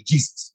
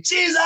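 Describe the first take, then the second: First: Said in the usual way. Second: Jesus shouted much higher; screamed Jesus. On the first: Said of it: "all I just screamed was". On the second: Retold or imitated. Terrified passenger screaming on the falling plane, high shout. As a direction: cry Jesus out in panic. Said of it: "That's all I, I was like".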